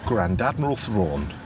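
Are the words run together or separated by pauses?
run together. The words are run together without any breaks. The speaker calls it wrong. "if I say it together, which I'll do now"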